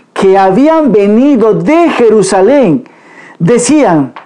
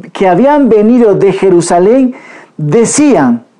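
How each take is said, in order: Both takes have the same delivery.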